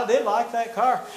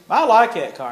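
First: "did" leaned on, falling after it; stress on did. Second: Said in the usual way. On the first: Retold or imitated. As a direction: insist with weight on "did".

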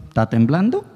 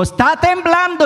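First: Said in the usual way. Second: "Está temblando" cried out much higher in alarm; alarmed cry. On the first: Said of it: "Entonces dice uno". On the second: Retold or imitated. Man sees the next tower swaying and cries out in alarm. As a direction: shout it the moment you see the building sway.

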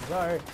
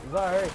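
Both takes have the same delivery.

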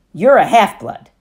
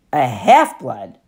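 First: Louder, firm statement on you're; firm declaration. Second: Slow, lower, stunned echo of half-blood; stunned question. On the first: Annabeth tells Percy what he is, firm and loud. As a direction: state it flatly, no room for doubt. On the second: Percy echoes Annabeth in shock, slow stunned question. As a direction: repeat it in disbelief, slowly. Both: Acted.

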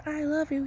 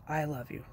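First: High, breezy empty cheer; high-pitched token declaration; just words. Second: Softer, sincere declaration; quiet, heartfelt I love you; really meaning it. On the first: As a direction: say it lightly in a much higher voice, without meaning. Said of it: "You can say it as words". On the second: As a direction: say it softly and mean it. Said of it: "Really mean it". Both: Shown as a demonstration.

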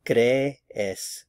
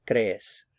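First: "Crees" slowly as two beats, CRE - es; drawn-out teaching "Crees", cre, then es; separated syllables. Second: Said in the usual way. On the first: Shown as a demonstration. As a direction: pull the two E's of "Crees" apart. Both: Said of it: "get the two E's in separate syllables".

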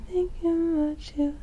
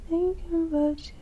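Both takes have the same delivery.

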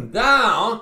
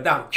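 First: Down, shouted high and loud; emphatic shout. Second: Said in the usual way. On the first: Acted. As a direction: hurl the word down, like throwing him down. Preacher repeating down for emphasis.

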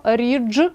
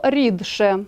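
First: «рідше» said with дж, "ridzhshe"; pronunciation demo. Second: Said in the usual way. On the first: Shown as a demonstration. Teacher showing how «рідше» is transcribed. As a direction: turn д into дж in «рідше». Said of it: "в транскрипції ми пишемо". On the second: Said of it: "слово".

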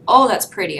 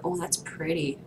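First: "Oh, that's pretty" said again much louder; louder excited repeat. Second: Said in the usual way. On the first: Shown as a demonstration. Player admiring a new golden card, louder and delighted.

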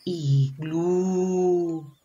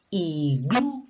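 First: "iglú" with a long held U; stretched last vowel. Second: "Iglú" split into two beats, ending up; sounded out syllables. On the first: Teacher checking the final sound, stretched "iglú". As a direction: draw the end of "iglú" right out. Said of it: "A ver". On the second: Teacher testing whether it ends in A, syllable-split "Iglú". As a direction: separate the I from glú in "Iglú". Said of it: "¿Terminó con A?". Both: Shown as a demonstration.

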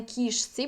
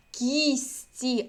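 First: Кішці said as written, with hushing ш; sh kept before tsi. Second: Кісті for кішці, soft сь in place of ш; assimilated soft s-ts. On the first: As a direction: keep the ш in кішці. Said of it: "а не". (кішці з ш, як на письмі) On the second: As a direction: model Кісті carefully with a hissing сь. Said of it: "будемо писати у фонетичній транскрипції". (Кісті з м'яким сь замість ш) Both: Shown as a demonstration.

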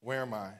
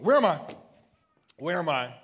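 First: Said in the usual way. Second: Loud cry. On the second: Real, not acted. Preacher repeats question, fading.

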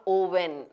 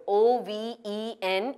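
First: Oven starting with a rounded oh, "oh-ven"; wrong pronunciation. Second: Oven starting with an unrounded uh, "uh-ven"; correct pronunciation. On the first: Teacher showing what to avoid, mispronounced. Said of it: "not oven". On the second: Teacher modelling the correct word, correctly pronounced. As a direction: say oven as "uhven". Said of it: "is pronounced as oven". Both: Shown as a demonstration.

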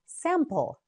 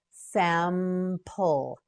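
First: Said in the usual way. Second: "Sample" slowly as sam, pul; syllable by syllable. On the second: Shown as a demonstration. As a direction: hold the m in "Sample", then finish. Teacher models word by syllables.

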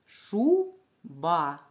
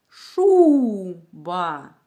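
First: Шуба split as шу, pause, ба; syllable-by-syllable teacher demo of шуба. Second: Шуба with a very loud, long ШУУУ, then ба; hugely stressed ШУ, lighter ба in шуба; louder first syllable. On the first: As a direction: break шуба into two separate syllables. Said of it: "Скільки складів у цьому слові?". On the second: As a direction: stretch and belt out the ШУ in шуба. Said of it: "Я говорила голосніше". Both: Shown as a demonstration.

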